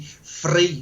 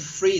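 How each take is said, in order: First: The r is strong and rolled. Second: The r is said plainly and softly. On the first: "they have the strong R, you know. They they overpronounce it" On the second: "they don't say free"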